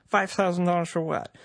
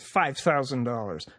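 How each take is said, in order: First: Pitched higher, incredulous question; indignant disbelief. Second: Said in the usual way. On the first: Acted. Podcaster outraged at the fine from the official, incredulous. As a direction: throw the figure back in disbelief.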